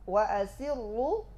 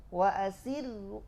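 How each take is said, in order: Both takes have the same delivery.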